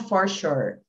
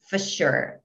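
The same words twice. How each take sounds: First: The word 'for' is said with a full vowel. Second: The word 'for' is reduced to almost just f. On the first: The speaker calls it wrong. "Eles não falam for sure" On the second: The speaker calls it right. "é só o F que é pronunciado praticamente, só o for"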